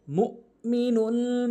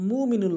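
First: "মুমিনুল" chanted slowly with a glottal stop after "mu"; sounded hamza. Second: "মুমিনুল" run smoothly with no glottal catch; dropped hamza. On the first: Shown as a demonstration. Teacher shows the right way, "মুমিনুল" with a clear hamza stop. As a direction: cut "মুমিনুল" sharply after "mu", then draw out the rest. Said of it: "হামজার উচ্চারণ করতে হবে এভাবে". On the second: Retold or imitated. Teacher shows the common mistake, "মুমিনুল" without its hamza. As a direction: say "মুমিনুল" as one smooth word, hamza left out. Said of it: "হামজার উচ্চারণ বাদ দেয়".

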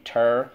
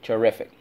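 First: TERRIFIC split into ter, ri, fic with long pauses; syllable by syllable. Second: Said in the usual way. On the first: Shown as a demonstration. Teacher redoing the word for class, syllable by syllable. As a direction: chant Terrific in chunks, f starting the last one. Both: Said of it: "Let's go again".

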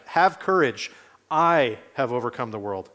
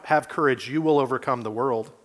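First: "I" leaned on in "I have overcome the world"; stress on I. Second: Said in the usual way. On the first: Shown as a demonstration. Preacher reading the verse to the congregation, "I" emphasised. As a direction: emphasise "I", not "you". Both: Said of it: "The Greek sentence structure is emphatic".

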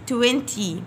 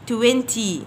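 Both takes have the same delivery.

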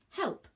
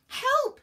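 First: High but unexcited reciting voice; prim, pitched-up definition heading; scribbling parchment. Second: Very high, loud scream for help; shrieked high-pitched plea. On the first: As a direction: read HELP out as a dictionary headword, without shouting. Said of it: "the parchment started to scribble". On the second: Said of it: "she screamed". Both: A narrator's reading.

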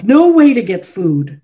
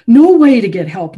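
First: Angry, settling. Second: Loud, higher, peak of the accusation; angry outburst. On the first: Chopin finishing his accusation, loud and falling. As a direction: still loud but easing off, falling at the end. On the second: Chopin accusing the visitor's father, loudest angry outburst. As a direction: hammer NO at full volume. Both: A narrator's reading. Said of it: "His eyes were afire".

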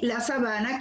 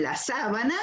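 First: Sabana said as sa-BA-na, middle syllable stressed; sa-BA-na, the plain word, stressed second in sabana. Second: Sábana said as SÁ-ba-na, first syllable stressed; SÁ-bana, the bedsheet word, stressed up front in sábana. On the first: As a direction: lean on the BA in sabana. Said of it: "que es una extensión plana". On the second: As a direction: hit the SÁ in sábana. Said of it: "que es lo que usamos para cubrir el colchón". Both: Shown as a demonstration.

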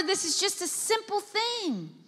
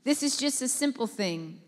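First: Higher airy take of This is just a simple thing; a light, lifted This is just a simple thing. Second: Said in the usual way. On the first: Shown as a demonstration. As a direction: toss it off lightly.

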